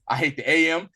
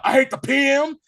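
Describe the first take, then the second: First: Said in the usual way. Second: Loud, high-pitched quoted outburst; real loud. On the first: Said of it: "then he says real loud". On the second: Retold or imitated. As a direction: belt it out much higher and louder. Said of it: "he says real loud".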